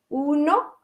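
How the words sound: It has full vowels and a Spanish N. "en castellano es uno"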